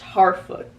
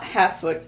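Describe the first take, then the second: First: The first part sounds like 'har'. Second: The first part sounds like 'half'. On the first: The speaker calls it right. "it's Harfoot" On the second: The speaker calls it wrong. "I've been saying it wrong"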